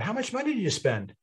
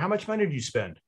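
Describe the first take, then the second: First: It sounds friendly and impressed throughout. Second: It sounds accusing and falls at the end. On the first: The listener feels they got a great deal. "It's a much friendlier tone" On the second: The listener feels they must justify the spending. "But it goes down at the end"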